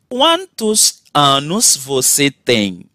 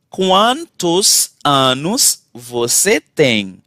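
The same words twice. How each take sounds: The two takes are said the same way.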